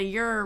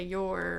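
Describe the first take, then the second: First: "your" said as a long country "yer". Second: Said in the usual way. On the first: Shown as a demonstration. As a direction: stretch "your" into a twangy "yer". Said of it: "your" rather than a "your". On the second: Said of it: "rather than a".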